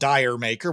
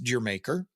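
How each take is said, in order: First: The first word sounds like 'dire'. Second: The first word sounds like 'dear'. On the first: The speaker calls it wrong. "It doesn't make any sense to be called Dire Maker" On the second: The speaker calls it right. "I've always known it was pronounced Dear Maker"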